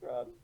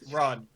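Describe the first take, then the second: First: It is said in a weary, exasperated tone. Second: It is said in a grave, serious tone. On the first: It is resigned advice to just get away. "Now it's more just like, oh god" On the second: It is an urgent, earnest warning. "it was very serious"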